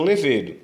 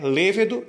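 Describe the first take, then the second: First: Levedo with a strong middle syllable, le-VE-do; wrong stress. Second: Lêvedo with a strong first syllable, LÊ-ve-do; correct stress. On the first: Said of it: "e não levedo". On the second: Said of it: "A palavra é lêvedo e não levedo". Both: Shown as a demonstration.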